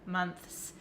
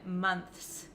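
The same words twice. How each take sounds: First: A full 'th' sound comes before the s. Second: A full 'th' sound comes before the s.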